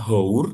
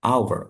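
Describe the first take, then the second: First: "hour" with a sounded H, "how-r"; spelling pronunciation. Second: "hour" as "ow-er", H left silent; spoken form. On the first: Tutor contrasting spelling with sound, "hour" with H voiced. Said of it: "Tulisannya hour, walaupun depannya H". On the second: Tutor giving English for jam, "hour" with silent H. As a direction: begin "hour" on an open "a" sound. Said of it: "cara bacanya". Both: Shown as a demonstration.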